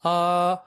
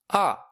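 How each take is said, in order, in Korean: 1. 음높이가 높고 평평하게 유지돼요. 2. 높은 데서 음높이가 확 떨어져요. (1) "일성은 아라고 합니다" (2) "사성은 아 라고 합니다"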